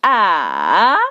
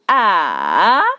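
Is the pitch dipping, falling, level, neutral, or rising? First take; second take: dipping; dipping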